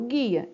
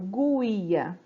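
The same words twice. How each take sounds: First: The U sound is silent after the G. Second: The U sound is pronounced after the G. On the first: The speaker calls it right. "Eu falo guia. Então, o som do U, ele fica apagadinho ali" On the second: The speaker calls it wrong. "você não escuta falando guia"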